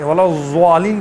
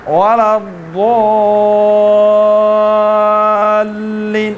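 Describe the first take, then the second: First: ولا الضالین with a plain Urdu z sound, no heavy zaad; wrong z for zaad. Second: Sung, ولا الضالین with a thick, heavy zaad and a long stretched vowel; sung, heavy zaad, drawn out. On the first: Teacher showing the wrong z in ولا الضالین. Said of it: "ولا الضالین کہنے سے ضاد تھوڑی ہوتا ہے". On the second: Sung, Quran teacher modelling correct zaad for students. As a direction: chant it slowly, pressing the zaad hard. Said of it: "مار کے تھوڑا سا کشش دے دیں". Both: Shown as a demonstration.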